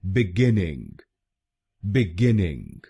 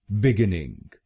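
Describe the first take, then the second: First: बिगिनिंग as "bi-GIN-ing", second syllable "gen"; बिगिनिंग said clearly, bih-GEN-ing; correct pronunciation. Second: बिगिनिंग as "bi-gi-ning", nasal ending; बिगिनिंग said the common wrong way, bi-gi-ning; wrong Indian way. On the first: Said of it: "इसकी सही pronunciation है". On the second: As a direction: demo of the wrong बिगिनिंग, bih-gih-ning. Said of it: "काफी लोग भारत में इस शब्द को गलत बोलते हैं". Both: Shown as a demonstration.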